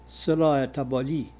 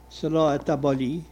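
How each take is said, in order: Both takes have the same delivery.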